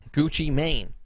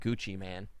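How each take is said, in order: First: The last word rhymes with 'rain'. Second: The last word rhymes with 'can'. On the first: The speaker calls it right. "so it is Maine" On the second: The speaker calls it wrong. "I'm calling him [name]"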